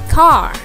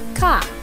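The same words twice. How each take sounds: First: It is said in an American accent. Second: It is said in a British accent. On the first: "the American uh, gonna say car" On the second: "while the British people would say car"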